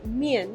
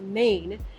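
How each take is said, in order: First: The vowel glides from ee to an. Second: The vowel sounds like the English word main. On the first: The speaker calls it right. "So it's mian" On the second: The speaker calls it wrong. "not main"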